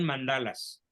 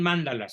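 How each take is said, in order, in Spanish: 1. El acento está en la segunda sílaba. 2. El acento está en la primera sílaba. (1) "son mandalas, con, sin acento en la A" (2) "no son mandalas"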